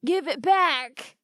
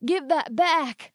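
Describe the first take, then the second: First: Slow, higher, forced firmness; steel in his voice. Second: Slow, higher, strained plea; dazed, pleading through pain; groaned. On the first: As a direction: try to sound tough while dazed. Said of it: "trying hard to get some steel in his voice". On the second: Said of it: "groaned Hoyt". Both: A narrator's reading.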